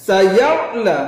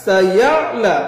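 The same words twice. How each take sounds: No difference in how they are said.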